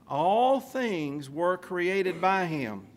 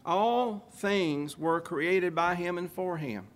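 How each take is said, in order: First: "All things were created by him." very slow, every word weighed, "All" leading; emphasized. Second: Said in the usual way. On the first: Shown as a demonstration. Preacher driving the point home to his congregation, slow heavy emphasis. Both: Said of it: "I want to emphasize that".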